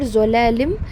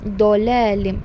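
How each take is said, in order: First: The word begins with a z sound. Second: The word begins with a heavy dh sound. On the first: The speaker calls it wrong. "It is not zolalim" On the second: The speaker calls it right. "it is do, dolalim"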